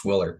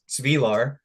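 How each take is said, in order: First: The surname is said with an anglicized English pronunciation. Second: The surname is said with its original Yugoslav pronunciation. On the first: This is the changed pronunciation used after immigrating. "the English pronunciation is Swiller" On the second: This is how the name is said in the old country. "it's a Yugoslavian name, and if you're back there, it's Svilar"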